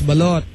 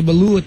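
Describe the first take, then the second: First: The second vowel sounds like oh. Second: The second vowel sounds like oo. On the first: The speaker calls it right. "it's balot" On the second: The speaker calls it wrong. "don't say balut"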